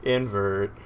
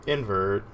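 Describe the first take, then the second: No difference in how they are said.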